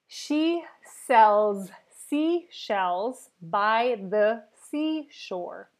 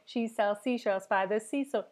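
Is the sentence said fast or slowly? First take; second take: slowly; fast. First: The sentence is said very slowly. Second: The sentence is said very quickly. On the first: "I'm gonna do very slow, very slow" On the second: "Now we're going to speed this up slowly"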